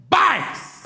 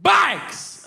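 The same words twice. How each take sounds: First: "Bikes!" blurted very high and sharp; yelled verbal tic. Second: Sudden very high yelp; yelled verbal tic. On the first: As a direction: yelp "Bikes!" suddenly. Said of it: "I just yell it". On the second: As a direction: blurt "Bikes!" as a sharp high yelp. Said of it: "I get, like, verbal tics". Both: Shown as a demonstration.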